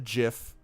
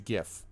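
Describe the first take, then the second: First: The word begins with a soft J sound. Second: The word begins with a hard G sound. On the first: The speaker calls it wrong. "It's not a GIF. It's not peanut butter" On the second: The speaker calls it right. "It's a GIF, as God intended"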